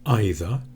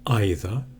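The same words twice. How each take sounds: The two takes are said the same way.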